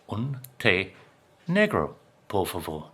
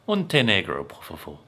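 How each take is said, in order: First: The phrase is spoken very slowly. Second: The phrase is spoken at a normal pace.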